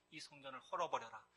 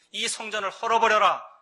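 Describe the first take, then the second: First: Hushed scripture quotation; quiet recitation. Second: Loud, high command ringing out; commanding proclamation. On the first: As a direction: recite the command quietly, without force. Same quote repeated quietly as text. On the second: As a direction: thunder it out as a bold challenge. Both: Acted.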